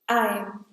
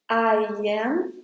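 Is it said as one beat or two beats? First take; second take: one beat; two beats. First: It is said as one single beat. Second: It is said as two separate beats. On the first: The speaker calls it right. "when they are together, there's only one sound" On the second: The speaker calls it wrong. "When you say them separately, then you have two sounds, two beats"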